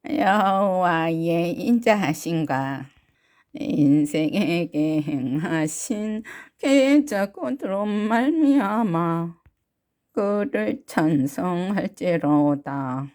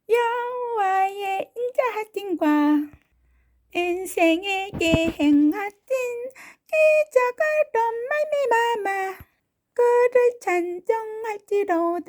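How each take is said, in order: First: It is said in a grandmother's voice. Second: It is said in a baby's voice.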